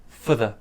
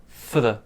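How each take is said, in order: No difference in how they are said.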